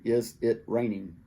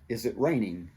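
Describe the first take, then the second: First: The two words are said separately. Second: The z sound links into the next word. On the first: The speaker calls it wrong. "We don't say" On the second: The speaker calls it right.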